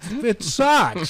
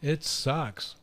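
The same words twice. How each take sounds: First: It is said more loudly. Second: It is said at normal, quieter volume.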